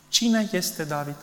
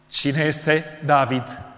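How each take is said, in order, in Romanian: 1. Întrebarea este pusă cu simplă curiozitate. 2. Întrebarea este pusă cu răutate și dispreț. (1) "nu așa a spus Nabal" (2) "cu mai multă răutate și nu cu curiozitate"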